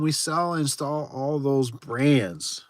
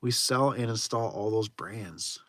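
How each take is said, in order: First: Slow puzzled reading. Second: Quieter slow rereading of the line; slow puzzled reading. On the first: Streamer reads a confusing chat message aloud slowly. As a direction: read the chat line out slowly. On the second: Streamer rereads the confusing chat message, slow and quieter. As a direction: mutter it again, still baffled. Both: Shown as a demonstration. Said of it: "I am so still confused".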